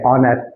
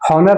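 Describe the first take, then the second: First: The word starts with a vowel, no h sound. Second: The word starts with an audible h sound. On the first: The speaker calls it right. "ऑनर एच silent रहता है" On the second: The speaker calls it wrong. "हॉनर नहीं पढ़ा जाता है"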